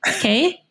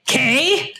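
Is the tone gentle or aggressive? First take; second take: gentle; aggressive. First: It is said as a gentle question. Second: It is said as an aggressive question.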